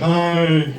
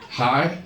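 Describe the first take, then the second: First: The greeting is said in a garbled, slurred voice. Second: The greeting is said in a normal voice.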